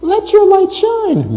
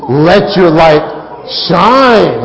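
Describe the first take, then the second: First: It is said in a high, squealy voice. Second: It is said in a full, strong voice. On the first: The message is weak and timid. The speaker calls it wrong. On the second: The message is bold and powerful. The speaker calls it right.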